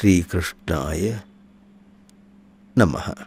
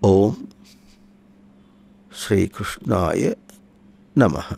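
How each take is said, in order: First: The Om is sounded as a resonant nasal hum. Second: The Om is drawn out, with pauses between words. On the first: The name carries as much meaning as the Om itself. "ప్రణవనాదంతో చెప్పకూడదా అంటే అట్లా ఏం లేదు, చెప్పచ్చు" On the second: The Om is taken as a pointer to its meaning. "ప్లుతంగా పలుకుతాం"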